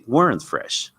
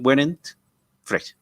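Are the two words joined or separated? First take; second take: joined; separated. First: The two words run together without a break. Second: The two words are said with a break between. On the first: The speaker calls it right. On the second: The speaker calls it wrong. "You don't say"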